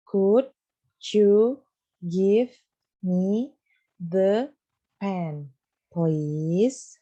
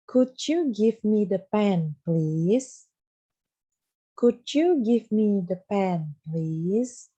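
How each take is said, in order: First: Each word separately, with pauses between. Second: Slow model sentence. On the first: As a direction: split the sentence into single words for the class to repeat. (kata demi kata, dengan jeda di antaranya) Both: Shown as a demonstration. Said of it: "Ada yang tahu gimana?".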